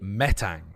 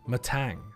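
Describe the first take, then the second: First: The stress is on the first syllable. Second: The stress is on the second syllable.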